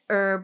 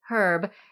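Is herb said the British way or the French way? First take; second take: French; British. First: The word is said the French way. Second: The word is said the British way. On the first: "The French pronounce it herb" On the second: "the Brits pronounce it herb"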